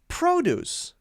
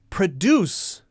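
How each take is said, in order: First: The stress is on the first syllable. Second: The stress is on the second syllable. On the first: It is the noun. "we'll stress the other syllable, the first syllable" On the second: It is the verb. "If it's a verb, it's usually going to stress the second syllable"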